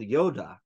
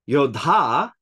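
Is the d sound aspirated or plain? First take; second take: plain; aspirated. First: The d sound is plain, without aspiration. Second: The d sound is aspirated with a breath. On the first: It is the name of a character. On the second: It would mean a warrior.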